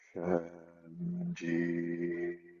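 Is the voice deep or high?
deep. It is said in a deep body voice.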